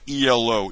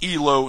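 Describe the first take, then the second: First: It is spelled out as three separate letters. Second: It is said as one two-syllable word. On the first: It is the name of a 1970s band. The speaker calls it wrong. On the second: It is the surname of the rating system's inventor. The speaker calls it right.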